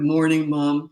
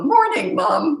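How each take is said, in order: First: The voice is deep and steady. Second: The voice is high and bounces up and down. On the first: A grown man speaks. "He turned into a man like overnight" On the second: A boy speaks playfully. "his voice going up and down"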